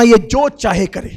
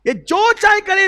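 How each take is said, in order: First: Louder, level pitch; loud firm statement. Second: Much higher and louder, stress on چاہے; impassioned cry. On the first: Prophet telling Umar, loud at level pitch. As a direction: state it firmly. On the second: Prophet pleading with Umar, high and loud. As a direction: cry it out with full feeling. Repeated, heightened. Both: Acted.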